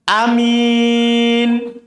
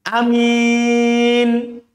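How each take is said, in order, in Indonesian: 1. Vokal pertama pendek; m-nya tunggal. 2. Vokal pertama pendek; m-nya tunggal.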